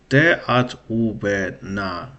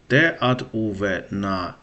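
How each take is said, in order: Both takes have the same delivery.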